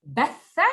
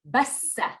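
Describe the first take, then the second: First: "Batha" with th as in thin, held and rising; tongue to the teeth in the middle of "Batha". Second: "bassa" with a long hissed s, pitched up; hissing s sound. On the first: Teacher asks pupil to copy the contrast, th-sound "Batha". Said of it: "the difference between the tha with the three". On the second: Teacher asks pupil to copy the contrast, hissing "bassa". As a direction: hiss through the middle of "bassa". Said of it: "the hissing sound". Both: Shown as a demonstration.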